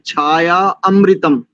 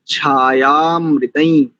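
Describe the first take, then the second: First: छाया अमृतम split into two words, ending in a full म; छाया अमृतम broken apart, wrongly; wrong split reading. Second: छायामृतैः slow and joined, long आ before मृ; छायामृतैः as one word, carefully; correct joined form. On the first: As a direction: imitate the common mistake: छाया then अमृतम. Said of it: "कई लोग क्या करते हैं". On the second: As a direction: model the right reading: छायामृतैः. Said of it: "विसर्ग का लोप हो गया है". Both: Shown as a demonstration.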